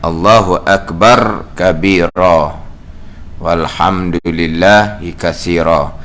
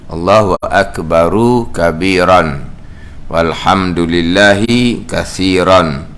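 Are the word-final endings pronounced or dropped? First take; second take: dropped; pronounced. First: The word endings are shortened or dropped. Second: Every word ending is pronounced in full. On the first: It is the way it is normally recited. "kita bacanya uh" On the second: It follows the written vowel marks exactly. "Itu saya baca mengikut baris"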